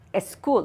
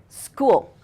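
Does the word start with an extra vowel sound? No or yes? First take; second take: yes; no. First: An extra vowel sound comes before the s. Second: The word starts directly with the s sound. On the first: The speaker calls it wrong. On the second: The speaker calls it right.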